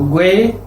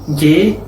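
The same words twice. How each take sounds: First: "gue" as gwe, the u heard; sounded U. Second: "ye" as hard g plus e, ge without a w; hard g straight into e on "ye"; silent U. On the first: Teacher showing what diéresis does, U pronounced. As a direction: glide through w in "gue". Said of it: "modifica el sonido de una sílaba". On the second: Teacher showing the sound without diéresis, U silent. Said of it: "si una sílaba va a tener sonido de". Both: Shown as a demonstration.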